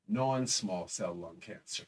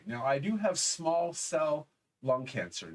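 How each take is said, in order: First: "non-small" pressed slow and lower, correcting himself; slow down and lean on "non-small" as the fix; correction stress on non-small. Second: Said in the usual way. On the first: Shown as a demonstration. Telling viewers his cancer type, "non-small" stressed to correct the slip.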